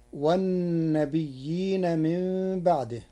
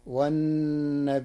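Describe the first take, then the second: First: Said in the usual way. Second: والنبيين with a hamza and a light ya, wannabiʔiina; Warsh reading. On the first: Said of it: "قرأ ورش كلمة والنبيين". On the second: Shown as a demonstration. Sheikh teaching listeners the Warsh reading, والنبيين with hamza. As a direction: say والنبيين with a clear hamza, ya not doubled. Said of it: "بالهمز مع تخفيف الياء".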